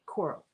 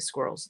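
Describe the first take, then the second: First: The word has no s sound at either end. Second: The word begins and ends with an s sound. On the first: "they wouldn't use the S on the front or the back" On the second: "They wouldn't say squirrels"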